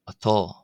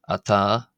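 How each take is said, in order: First: The vowel is a rounded 'aw' sound. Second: The vowel is an open 'ah' sound. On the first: This is the southern dialect form. "one will hear the A pronounced as an aw" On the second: This is the northern dialect form. "as opposed to ah in Ulster"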